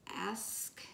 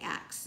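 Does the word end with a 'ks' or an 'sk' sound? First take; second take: sk; ks. First: The word ends with an 'sk' sound. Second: The word ends with a 'ks' sound. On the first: The speaker calls it right. "But it's ask" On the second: The speaker calls it wrong. "I cannot say A S K right. I say ax instead"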